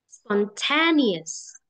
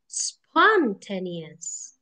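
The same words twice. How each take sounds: First: The stress is on a later syllable. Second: The stress is on the first syllable. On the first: The speaker calls it right. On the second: The speaker calls it wrong.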